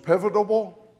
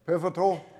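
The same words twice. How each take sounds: First: Pivotal said as "pivotable" with an extra syllable. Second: Pivotal said cleanly in three syllables, PIV-uh-tul; corrected pronunciation. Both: Real, not acted. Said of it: "there's one extra syllable in there".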